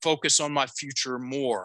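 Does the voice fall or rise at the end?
fall. The voice falls at the end.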